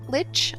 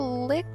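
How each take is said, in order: First: The word ends with a ch sound. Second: The word ends with a k sound. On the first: "everyone I know has said lich" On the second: "I think it's supposed to be lick"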